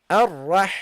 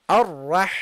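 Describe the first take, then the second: The two takes are said the same way.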